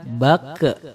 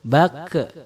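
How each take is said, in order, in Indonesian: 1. Huruf q terakhir memantul dengan gema mirip 'e' yang ringan. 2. Huruf q terakhir memantul dengan gema mirip 'e' yang ringan.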